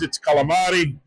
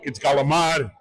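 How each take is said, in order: First: It is said with an Italian pronunciation. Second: It is said with a New York pronunciation.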